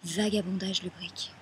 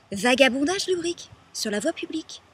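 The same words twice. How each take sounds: First: Said in the usual way. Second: Loud, high, outraged delivery; indignant repetition. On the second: Acted. Woman repeating the charge she was arrested on, indignant.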